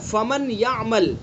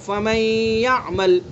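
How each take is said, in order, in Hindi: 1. य से पहले न की आवाज़ साफ़ बोली जाती है। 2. न य में मिल जाता है, लेकिन उसकी नासिक्य आवाज़ (ग़ुन्ना) बाक़ी रहती है। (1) "असल क्या है" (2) "ये नून की आवाज़ आ रही है ना"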